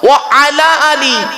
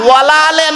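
First: It is said separately as 'wa ala ali'. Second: It is run together as 'wala ale'. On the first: The speaker calls it right. "উচ্চারণটা ঠিক করুন" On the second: The speaker calls it wrong. "ওয়ালা আলে নয়"

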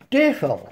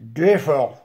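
First: The voice is at its ordinary pitch. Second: The voice is at a put-on deep pitch.

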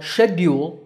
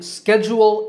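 First: It is said with a British pronunciation. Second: It is said with an American pronunciation. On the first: "while schedule is British" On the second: "schedule is the American pronunciation"

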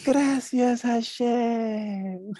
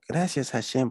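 First: The thanks sounds sincere and heartfelt. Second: The thanks sounds grudging and half-hearted. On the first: The thanks is truly meant. The speaker calls it right. "De verdad, con todo el corazón" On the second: The thanks is not really meant. The speaker calls it wrong. "No, no así"

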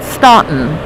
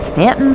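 First: The name is said the way outsiders say it. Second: The name is said the way locals say it. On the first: The speaker is from out of town. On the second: The speaker is from the area.

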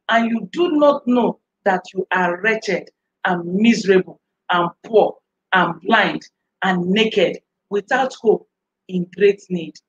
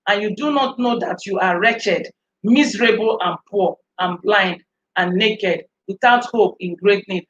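First: It is read at a slow pace. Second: It is read at a faster pace.

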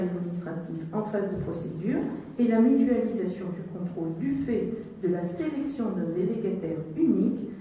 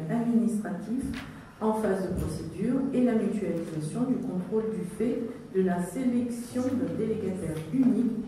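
Both takes have the same delivery.

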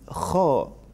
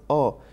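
First: The word starts with a throaty kh sound. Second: The word starts without the throaty kh sound. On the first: The speaker calls it right. "it is kho" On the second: The speaker calls it wrong. "It is not o"

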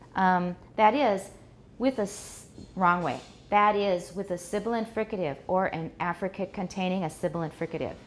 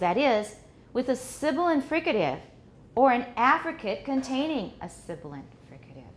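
First: The second 'sibilant fricative' is strongly stressed. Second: The second 'sibilant fricative' is barely stressed. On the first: The speaker calls it wrong. "That's the wrong way" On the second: The speaker calls it right. "But the way we really say it is"

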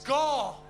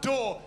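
First: The word begins with a guttural, throaty sound. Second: The word begins with a plain D sound. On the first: The speaker calls it right. "It's gore" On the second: The speaker calls it wrong. "It's not door"

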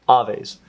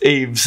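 First: The word is pronounced with Spanish sounds. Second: The word is pronounced with English sounds. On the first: The speaker calls it wrong. "let me not say that in Spanish" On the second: The speaker calls it right. "It's Aves in English"

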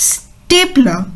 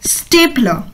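Both takes have the same delivery.

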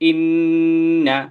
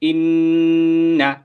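First: The double n is held with a nasal hum. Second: The same.

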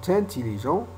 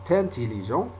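Both takes have the same delivery.

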